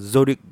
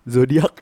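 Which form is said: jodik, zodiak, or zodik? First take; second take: zodik; zodiak. First: It begins with a z sound, ending -dik. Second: It begins with a z sound, ending -diak. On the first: This is how Surabaya speakers say it. "kalau ngomong J tuh kayak zodik gitu, ada Z-nya" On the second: This is how Padang speakers say it. "kalau zodik zodiak lah harusnya gitu"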